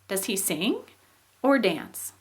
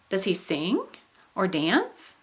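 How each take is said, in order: First: The tune sounds like a closed either-or choice. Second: The tune sounds like an open yes-no question. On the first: He does exactly one of the two. "so then we have a closed choice. Now in this one, listen to the difference" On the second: He might do either, both or other things. "it's probably easier to understand what an open choice is if I just give you an example"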